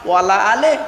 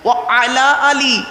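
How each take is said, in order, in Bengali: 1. প্রথম দুটি শব্দ মিশে একটি শব্দ হয়ে যায়। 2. প্রথম দুটি শব্দ আলাদা আলাদা শব্দ হিসেবে বলা হয়। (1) "দরুদ শরীফের মধ্যে একটা ভুল বলি আমরা" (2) "আছেটা কি? ও আলা আলী"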